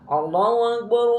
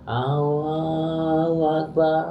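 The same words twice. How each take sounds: First: It is said loudly and forcefully. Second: It is said softly and weakly. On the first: The speaker calls it right. "tapi keras" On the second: The speaker calls it wrong. "tidak seperti itu"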